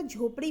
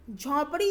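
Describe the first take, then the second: First: झोपड़ी with close "o", as jhopri; correct झोपड़ी. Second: झोंपड़ी with open "au", as jhaupri; mispronounced झोंपड़ी. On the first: Teacher gives the right word, झोपड़ी as jhopri. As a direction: round the first vowel of झोपड़ी. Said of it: "झोपड़ी होता है". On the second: Teacher rejects the wrong form, झोंपड़ी as jhaupri. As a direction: widen the first vowel of झोंपड़ी. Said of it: "जैसा कोई भी शब्द नहीं होता". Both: Shown as a demonstration.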